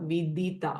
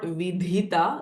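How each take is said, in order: First: The middle consonant has a plain, unaspirated release. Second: The middle consonant has a breathy, aspirated release. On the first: The speaker calls it right. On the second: The speaker calls it wrong. "it is not vidhita"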